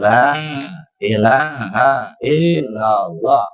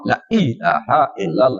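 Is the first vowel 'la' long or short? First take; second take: long; short. First: The first vowel is drawn out long. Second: The first vowel is said short. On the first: The speaker calls it right. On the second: The speaker calls it wrong. "itu nggak sesuai"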